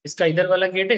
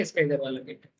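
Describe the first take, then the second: First: Said in the usual way. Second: Quiet repeat. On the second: Acted. Teacher repeats the gate remark to himself, low and soft. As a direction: lower and softer, stress on इसका.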